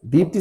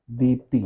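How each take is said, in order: First: दीप्ति with a short final इ; correct short vowel. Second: दीप्ति with a long final ई; common mispronunciation. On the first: Teacher giving the right form, correct pronunciation demo. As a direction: keep the last i of दीप्ति short. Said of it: "दीप्ति सही है". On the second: Teacher showing what people say, mispronunciation demo. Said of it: "इसको लोग बोलेंगे क्या?". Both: Shown as a demonstration.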